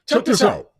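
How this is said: It is said in a put-on announcer voice.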